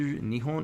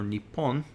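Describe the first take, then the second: First: The middle consonant is a soft h sound. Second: The middle consonant is a held, strong p sound. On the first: "which can be pronounced as either Nihon" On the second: "or Nippon"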